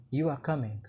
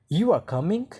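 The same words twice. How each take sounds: First: Said in the usual way. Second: "You are coming" higher, rising sharply on "coming"; rising intonation. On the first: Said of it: "So there is no question mark". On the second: Shown as a demonstration. Teacher demonstrating question intonation to students, rising at the end. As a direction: turn "You are coming" into a question with a clear final rise. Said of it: "there is rising intonation at the end".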